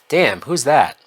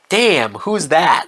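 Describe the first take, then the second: First: It is said flatly, like Pete, unexcited. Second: It is said with lively enthusiasm.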